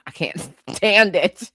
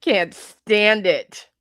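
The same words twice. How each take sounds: First: Laughing through it. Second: Slow drawn-out repeat. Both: Real, not acted.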